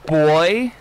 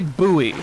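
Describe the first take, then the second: First: It sounds like boy, in one syllable. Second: It sounds like boo-ee, in two syllables. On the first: This is how British speakers say it. "British people say boy?" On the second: This is how American speakers say it. "They don't say buoy. Apparently Americans are weirdos for saying buoy"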